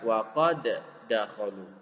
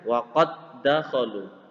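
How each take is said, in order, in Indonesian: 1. Kedua bunyi d dibaca terpisah. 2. Kedua bunyi d menyatu menjadi satu d yang dirangkap. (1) "bukan waqad dakhalu" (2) "Jadi dibaca waqad dakhalu"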